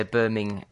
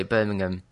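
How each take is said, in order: First: Birmingham with a full, separate HAM; stress on HAM. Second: Birmingham with weak ending, "BER-ming-um"; British pronunciation. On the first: Retold or imitated. Brit imitating how you guys say it, Birming-HAM. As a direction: say "Birming-HAM", ending unreduced. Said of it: "put a proper emphasis on the ham". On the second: Shown as a demonstration. Brit showing how we say it, Birmingham as BER-ming-um. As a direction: swallow the ham in Birmingham to "um". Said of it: "that's how we sort of say".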